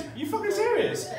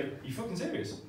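First: Much higher, pitched up on serious; high mock outrage. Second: Blurted disbelief. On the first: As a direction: screech it in disbelief. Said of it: "worst thing you can say". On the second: Retold or imitated. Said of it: "It was like".

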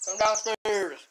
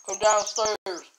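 First: Loud high call upstairs; yelling across the room. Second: Loud high call upstairs, repeated; yelling across the room. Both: Real, not acted. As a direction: shout for her to come down. Calling sister from downstairs.

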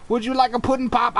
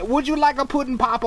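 First: Quick, sing-song hint of Cosby again offered; lightly voiced Cosby, repeating the offer fast; Cosby pudding pop voice. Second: Quick, sing-song hint of Cosby; Cosby pudding pop voice. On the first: Player repeating the pudding pop offer in Cosby voice. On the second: Player offering pudding pops to ogres in Cosby voice. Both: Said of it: "Bill Cosby freaks me".

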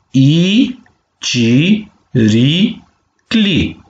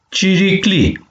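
First: Ci, ri, cli with a gap after each; syllable by syllable. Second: Said in the usual way. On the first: Shown as a demonstration. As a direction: model ci - ri - cli for repeating, each syllable held. (pe silabe: ci, ri, cli) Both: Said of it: "penem palalman de vitumen".

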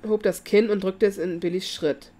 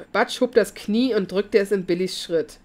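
First: Says Kinn, short i and final n, instead of Knie; misread word. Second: Said in the usual way. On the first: Real, not acted. Narrator misreading Knie as Kinn before correcting himself. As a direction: Kinn read with a short i and a closing n, the wrong word. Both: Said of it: "Sorry, Leute".

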